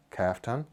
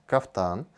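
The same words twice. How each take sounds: First: Kaftan said the English way, KAF-tan; English pronunciation. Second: Kaftan said the Russian way, kaf-TAN; Russian pronunciation. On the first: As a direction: stress the first syllable of kaftan, as in English. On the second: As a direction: stress the second syllable of kaftan, as in Russian. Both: Shown as a demonstration. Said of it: "I think it's a word in English".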